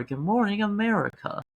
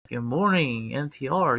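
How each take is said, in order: First: Higher, brighter morning show greeting; radio host voice. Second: Low, smooth public radio host; deep NPR radio voice. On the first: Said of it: "my first time doing that voice". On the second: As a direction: croon it like a morning radio host. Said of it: "gotta lower my voice deep". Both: Pretend.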